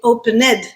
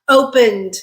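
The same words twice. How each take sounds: First: The ending is an extra syllable, three in total. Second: The ending is a bare d sound, two syllables. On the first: The speaker calls it wrong. "We're not saying opened" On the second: The speaker calls it right. "It's still a two-syllable word"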